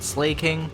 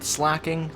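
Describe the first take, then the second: First: The first vowel is long, as in 'slake'. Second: The first vowel is short, as in 'slack'. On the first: This is how other people say it. "I know some people pronounce it Slaking" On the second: This is the speaker's own way of saying it. "I pronounce it Slacking"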